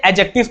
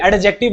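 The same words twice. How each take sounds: First: "एडजेक्टिव" as a-jective, no D sound; silent D. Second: "एडजेक्टिव" as ad-jective, with a separate D; wrong sounded D. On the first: Teacher giving the correct reading, "एडजेक्टिव" with silent D. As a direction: leave the D out of "एडजेक्टिव". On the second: Teacher showing the mistake to avoid, "एडजेक्टिव" with audible D. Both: Shown as a demonstration. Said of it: "डी को नहीं पढ़ते".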